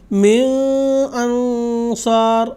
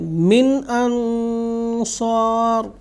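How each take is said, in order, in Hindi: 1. n नासिक्य गुंजन के साथ छिपा हुआ है। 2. n बिना नासिक्य गुंजन के स्पष्ट रूप से उच्चारित होता है। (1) "इसको इस तरह से नहीं पढ़ेंगे" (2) "यहाँ पे इसका इजहार होगा"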